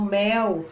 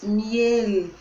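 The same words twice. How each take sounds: First: "mel" with the final L turned into a U sound, like "meu"; Portuguese final L. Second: "miel" slow, the final L held clear with the tongue up, no U sound; clear Spanish final L. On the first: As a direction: say "mel" the Brazilian way, the L becoming a U. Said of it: "a gente coloca o som do U". ("mel" à brasileira, com o L final virando U) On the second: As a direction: say "miel" slowly and finish on a real L. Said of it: "cuidado com o L final". ("miel" devagar, com o L final bem claro, sem som de U) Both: Shown as a demonstration.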